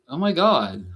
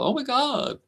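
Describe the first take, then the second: First: It is said in her normal voice. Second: It is said in a Valley Girl voice.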